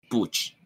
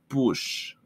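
First: The word ends with a 'ch' sound. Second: The word ends with an 'sh' sound. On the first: The speaker calls it wrong. "yo dije mucho push" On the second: The speaker calls it right. "cuando era push"

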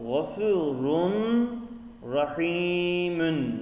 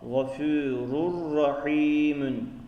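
First: An n sound is heard before the r. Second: The n merges into a doubled r sound. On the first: "Gafurun rahimün yazıyor" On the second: "Bu takdirde nasıl okunur artık? Rurra"

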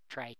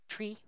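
First: The vowel rhymes with 'sky'. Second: The vowel rhymes with 'see'. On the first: It keeps the term distinct from trees. "I pronounce it as try" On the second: It follows the origin in the word retrieval. "can be pronounced as tree"

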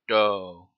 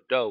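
First: The vowel is drawn out longer. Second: The vowel is held only briefly.

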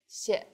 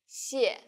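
First: The syllable has a light, short neutral tone. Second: The syllable has a sharply falling tone. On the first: "the second syllable is the neutral tone" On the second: "The tone in the first syllable is the fourth falling tone"

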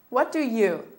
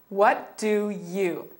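First: The phrase is said at a faster pace. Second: The phrase is said at a slower pace.

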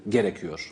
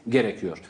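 No difference in how they are said.

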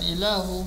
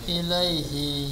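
First: The word is said as ilahu, without the 'ai'. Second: The word is said as ilaihi, with 'ai' and 'hi'. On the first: The speaker calls it wrong. "bukan ilahu" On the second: The speaker calls it right. "tapi ilai ilaihi"

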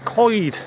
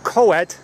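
First: The word sounds like 'koyd'. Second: The word does not sound like 'koyd'. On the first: The speaker calls it right. "it's Coed. It's like as if you're saying C-O-Y-D" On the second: The speaker calls it wrong. "It's not Coed"

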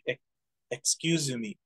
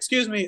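First: It is said with a Japanese accent. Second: It is said with an English accent.

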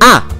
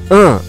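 First: The vowel is open and made at the front of the mouth. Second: The vowel is nasal, resonating through the nose. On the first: The speaker calls it right. "aqui, na frente da boca" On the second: The speaker calls it wrong. "e não aqui, an"

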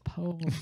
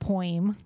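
First: The first vowel sounds like 'oh' in go. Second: The first vowel sounds like 'oi' in coin. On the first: The speaker calls it right. "It's poem" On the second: The speaker calls it wrong. "It's apparently not poem, like I say it"

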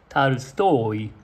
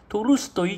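First: The first vowel is an a sound, final stress. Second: The first vowel is a clear o sound. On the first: This is the original Russian pronunciation. The speaker calls it right. "最後の母音にあるので全部その前のオの音はアになっちゃいます" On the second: This is the usual Japanese rendering. The speaker calls it wrong. "日本で言ってますけど"

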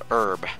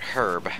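First: The h at the start is silent. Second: The h at the start is pronounced.

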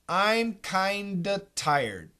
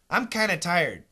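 First: The V is dropped, giving kinda with a D. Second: The V and D are dropped, giving kinna. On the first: "We can cancel the V" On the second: "We can cancel the D"

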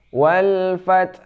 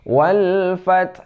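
The two takes are said the same way.

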